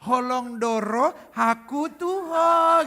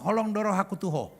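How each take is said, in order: First: It is said in a sweetened, tender way. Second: It is said plainly and bluntly. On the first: The speaker calls it wrong. "nggak boleh dimanis-manisin, nggak bisa gini" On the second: The speaker calls it right.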